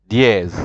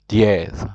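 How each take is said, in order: No difference in how they are said.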